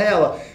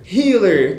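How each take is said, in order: First: It is said as the gamer form 'hella'. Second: It is said as the English word 'healer'. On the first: "eu ouço a galera falando Hella" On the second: "você pronuncia healer"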